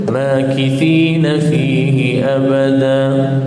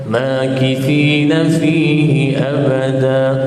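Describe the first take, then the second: No difference in how they are said.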